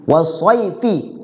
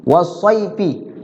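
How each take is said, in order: The two takes are said the same way.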